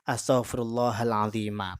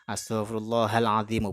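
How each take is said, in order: First: The final word ends with an a vowel. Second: The final word ends with a u vowel. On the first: The adjective is the object of an implied verb. "di sini menjadi maf'ul" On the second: The adjective is the predicate of an implied pronoun. "sini khobar dari huwa"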